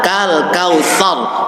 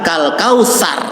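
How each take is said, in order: First: "kautsar" slow with a th; correct th sound. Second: "kausar" with a plain s; wrong s sound. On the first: Teacher modelling correct pronunciation slowly. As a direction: say "kautsar" with the tongue between the teeth. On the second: Teacher showing the mistake to avoid. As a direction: say "kausar" the sloppy way. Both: Shown as a demonstration. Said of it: "bukan kal kausar".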